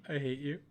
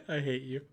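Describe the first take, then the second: Both takes have the same delivery.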